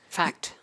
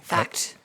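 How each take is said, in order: First: Said in the usual way. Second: Breathy whispered "Fact.". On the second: Real, not acted. Emphatic agreement, unvoiced.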